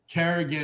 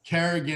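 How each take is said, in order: First: The name is said like 'Kerrigan', with a hard 'g'. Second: The same.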